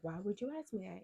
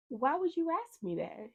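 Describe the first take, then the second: First: Mildly incredulous question; restrained, puzzled demand; retold retort. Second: High-pitched incredulous question; retold high, indignant demand; alarmed retort. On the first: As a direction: repeat the challenge with less alarm, only slightly raised. Same challenge repeated less high. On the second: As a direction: challenge them in disbelief, pitched way up. Retelling her alarmed challenge to technician.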